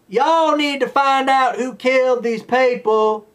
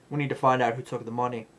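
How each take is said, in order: First: Hammed-up Southern cop accent; mock Southern accent. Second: Put-on softer, fast, no Southern accent; flat version with the Southern accent gone; accent dropped. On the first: Mocking the cop's Southern accent, exaggerated drawl. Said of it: "her accent came and went". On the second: Mocking the cop losing her accent, plain fast delivery. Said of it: "the next minute she's like".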